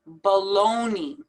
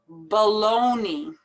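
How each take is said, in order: The two takes are said the same way.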